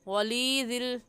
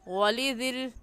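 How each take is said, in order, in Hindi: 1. L के बाद का स्वर खींचकर पढ़ा जाता है। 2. L के बाद का स्वर छोटा रखा जाता है। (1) "गलत वली दिल, ये गलत है" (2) "ऐसे पढ़ेंगे वली दिल, ये सही है"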